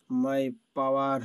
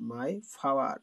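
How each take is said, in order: First: Plain hard p in power; unaspirated local p on power. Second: Breathy ph starting power; power with aspirated p. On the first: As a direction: say power as pawar, no puff. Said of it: "পাওয়ার নয়". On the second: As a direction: puff of air on the p in power. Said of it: "পাওয়ার নয়, my power". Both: Shown as a demonstration.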